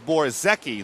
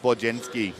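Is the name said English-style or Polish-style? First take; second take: English-style; Polish-style. First: The name is read as its English spelling suggests. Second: The name is said with a Polish-style pronunciation. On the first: The speaker calls it wrong. "You would swear his name is Borzecki, the way it's spelled" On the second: The speaker calls it right. "he is Polish and he pronounces it Borjenski"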